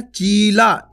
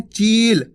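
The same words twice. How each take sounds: First: चीला with the final ला fully voiced; wrong full ending. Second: चील stopping at the ल with no vowel; half final sound. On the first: Teacher showing the wrong full reading of the last letter. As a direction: say चीला with the last syllable completed. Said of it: "इस तरीके से नहीं". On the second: Teacher showing the correct half last letter. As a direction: cut चील off at the ल. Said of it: "ला पा के अपन रुक गया". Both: Shown as a demonstration.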